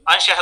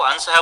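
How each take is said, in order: First: Said in the usual way. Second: अंश said as ansah. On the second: Shown as a demonstration. Teacher showing Rajasthani fault, अंश as ansah. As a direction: turn the 'sh' of अंश into plain 's'. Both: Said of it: "शकार को सकार के रूप में".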